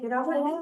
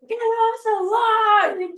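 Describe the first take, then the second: First: It is said mildly, without force. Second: It is said forcefully, like a demand.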